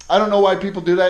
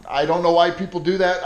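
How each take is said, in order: First: Louder, faster, fed-up repeat; heated repeat of the complaint; exasperated outburst. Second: Said in the usual way. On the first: Real, not acted. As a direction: blurt it out in real frustration.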